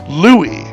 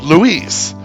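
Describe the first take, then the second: First: The name is said with a French pronunciation. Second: The name is said with a Spanish pronunciation. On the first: "give it a French twist" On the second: "stick to the pure Spanish way"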